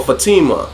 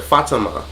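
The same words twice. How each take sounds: First: Fatima as fuh-TEE-muh; stress on second syllable. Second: Fatima as FAH-tuh-muh; stress on first syllable. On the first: Offering the other pronunciation of the name, Fatima as fuh-TEE-muh. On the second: Showing how people pronounce the name, Fatima as FAH-tuh-muh. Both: Shown as a demonstration. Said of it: "but they pronounce it".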